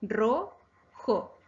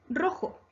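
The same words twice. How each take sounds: First: "Ro-jo" drawn out with a gap between syllables; teacher dividing "Ro-jo" into syllables. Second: Said in the usual way. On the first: Shown as a demonstration. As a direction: split "Ro-jo" into two separate beats. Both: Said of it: "Se divide en dos sílabas".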